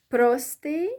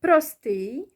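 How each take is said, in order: First: "простий" with ПРО punched, rising at the end; stress on the O. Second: "Простий" with a long, stressed ТИЙ; stress on last syllable. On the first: Teacher shows first way of saying simple, stress on the O. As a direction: hit the first syllable of "простий". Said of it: "stressing the O syllable". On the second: Teacher shows second way of saying simple, last syllable stressed. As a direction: lean on the final syllable of "Простий". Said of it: "whether you stress, uh, the first syllable or the last one". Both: Shown as a demonstration.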